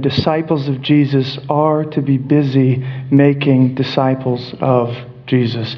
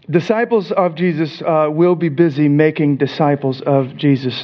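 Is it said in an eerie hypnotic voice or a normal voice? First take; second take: eerie hypnotic; normal. First: It is said in an eerie, hypnotic voice. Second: It is said in a normal speaking voice.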